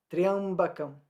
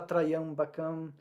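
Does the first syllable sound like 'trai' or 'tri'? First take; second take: tri; trai. First: The 'y' glides quickly into the following vowel. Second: The first syllable has a full 'ai' sound. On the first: The speaker calls it right. "mas é Triambakam. É bem rapidinho" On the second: The speaker calls it wrong. "tem gente que fala Traiambakam"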